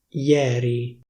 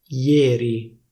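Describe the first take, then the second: First: The E vowel is open. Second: The E vowel is closed. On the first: This is the standard pronunciation. "la pronuncia ufficiale è ieri" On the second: This is how it is said in Milan. "a Milano si dice ieri, ieri, con la E chiusa"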